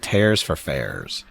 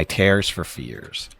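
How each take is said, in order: First: TEARS and FAIRS both rhyming with "airs"; fears rhymed with tares. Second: TEARS said "tares", FEARS left normal; tears as in ripping. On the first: Streamer joking about English spelling, both words rhymed with airs. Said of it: "how come fear isn't pronounced fair either?". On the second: Streamer testing the phrase on chat, TEARS said "tares". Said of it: "Or is it tears for fairs?". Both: Shown as a demonstration.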